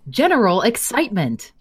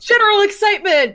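First: It is said in a calm, plain way. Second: It is said with loud, high excitement.

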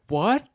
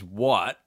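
First: It is said in an innocent way. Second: It is said in a not innocent way.

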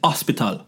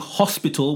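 First: It is said in a Jamaican accent, without H. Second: It is said in a standard accent.

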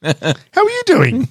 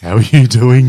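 First: It is said in a happy, upbeat voice. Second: It is said in a flat, ordinary tone.

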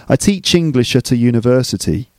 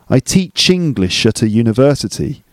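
Both takes have the same delivery.

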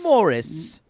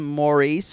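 First: The name is pronounced the British way. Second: The name is pronounced the non-British way.

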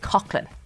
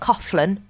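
First: The name is said without an f sound. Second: The name is said with an f sound. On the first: The speaker calls it right. "It is Coughlin, There is no F" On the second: The speaker calls it wrong. "not Coughlin. I know you think you're doing the right thing"

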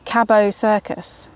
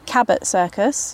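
First: Cabot is said with a French pronunciation. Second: Cabot is said with an English pronunciation. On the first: "you pronounce it French for some reason" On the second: "I've tried to train myself to say Cabot Circus"

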